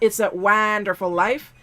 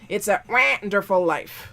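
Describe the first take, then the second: First: It is said in an ordinary speaking voice. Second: It is said in a quacking, duck-like voice. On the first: The speaker calls it wrong. "It's not" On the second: The speaker calls it right. "You have to quack"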